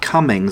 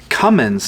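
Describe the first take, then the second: First: The name ends with an ng sound before s. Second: The name ends with an n sound before s. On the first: The speaker calls it wrong. "not Cummings" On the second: The speaker calls it right. "it's Cummins"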